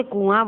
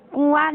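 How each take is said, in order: First: Said in the usual way. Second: "कुआं" pitched high; raised "कुआं", held up as a mistake; wrong version demonstrated. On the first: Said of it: "कुआं बोलते हैं". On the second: Shown as a demonstration. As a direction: read "कुआं" high as the form to reject. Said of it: "नहीं बोलते".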